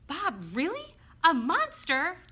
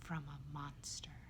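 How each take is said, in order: First: High, loud incredulous questions; astonished disbelief. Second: Slow, hushed near-whisper; dropped voice. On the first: Acted. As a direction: echo it back in amazement, pitched up. Astonished reply to Bob's revelation. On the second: A narrator's reading. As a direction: confide it low and slow, in dread. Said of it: "Bob drops his voice".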